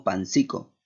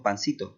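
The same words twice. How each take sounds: First: Pancico said with a k sound, pan-SEE-ko; pancico, swap the s for a hard k; Venezuelan pancico. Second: Pancito said with a soft s sound, pan-SEE-to; pancito, the Peruvian diminutive with s. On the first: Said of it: "Digamos pancico". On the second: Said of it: "nosotros decimos pancito". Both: Shown as a demonstration.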